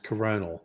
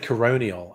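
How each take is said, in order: First: No extra 'ee' sound comes before the final syllable. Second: An extra 'ee' sound comes before the final syllable. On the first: The speaker calls it right. "And it's coronal" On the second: The speaker calls it wrong. "did I say coronial?"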